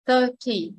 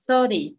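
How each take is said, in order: First: Thirty as THIR-tee with a crisp T; Thirty with a true T, falling off; first-syllable stress, clear T. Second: Thirty said as THUR-dee; Thirty with an American tapped D. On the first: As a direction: stress the start of Thirty and keep the T. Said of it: "nhấn trọng âm số một". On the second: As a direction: soften the T in Thirty to a D. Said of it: "chữ T đây mình chuyển chữ D". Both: Shown as a demonstration.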